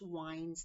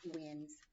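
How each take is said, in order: First: The vowel rhymes with 'finds'. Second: The vowel rhymes with 'pins'. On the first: It means twisting something around. The speaker calls it right. "Winds means to kind of uh, make them like twirl around" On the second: It names moving air. The speaker calls it wrong. "not winds"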